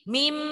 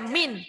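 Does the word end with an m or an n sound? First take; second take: m; n. First: The word ends with an m sound. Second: The word ends with an n sound. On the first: The speaker calls it right. "tapi mim" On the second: The speaker calls it wrong. "jangan dibaca min"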